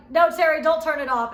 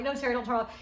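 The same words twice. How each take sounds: First: Loud, high-pitched plea; retold shout. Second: Said in the usual way. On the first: Begging cameraman Terry to keep filming, loud shout. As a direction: yell it at the cameraman, much higher and louder. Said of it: "And I was like".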